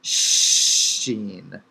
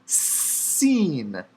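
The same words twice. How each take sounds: First: SHEEN with a long hushed sh; lower, drawn-out sh opening; right-dot letter. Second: SEEN with a long hissed s; drawn-out s, then falling ee; left-dot letter. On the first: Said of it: "Dot written on the right". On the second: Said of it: "Dot written on the left". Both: Shown as a demonstration.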